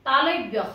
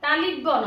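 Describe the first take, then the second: First: No vowel follows the 'l' sound. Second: An 'i' vowel follows the 'l' sound. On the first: The speaker calls it right. "তালব্য হ" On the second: The speaker calls it wrong. "তালিব্য নহয়"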